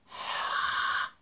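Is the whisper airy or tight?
tight. It is a tight, forced tongue whisper.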